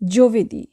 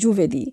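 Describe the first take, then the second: First: The first vowel sounds like 'oh'. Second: The first vowel sounds like 'oo'. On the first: The speaker calls it right. "উচ্চারণ হবে জোভেদি" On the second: The speaker calls it wrong. "আমরা অনেকেই এখানে ভুল উচ্চারণ করি, বলি জুভেদি"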